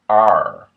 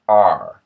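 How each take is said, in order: First: A Middle American R with tongue near front teeth. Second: A Middle American R with tongue near front teeth.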